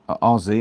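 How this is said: The letter Z is said the American way. "I'm talking like an American"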